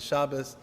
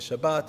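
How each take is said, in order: First: The word ends with an s sound. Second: The word ends with a t sound. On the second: "You could say Shabbat"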